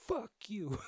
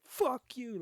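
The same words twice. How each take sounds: First: High mock yell at the car behind; retold curse at driver. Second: Higher and louder, a real yelled curse; angry shout. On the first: Man cursing the honking driver behind him, mock angry. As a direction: fling it back in mock anger. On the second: Retold or imitated. Man yelling back at the driver who honked, shouting. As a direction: throw it at him full force. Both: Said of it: "I'm mad".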